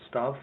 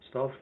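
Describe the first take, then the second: No difference in how they are said.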